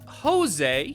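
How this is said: The name is said the Spanish way.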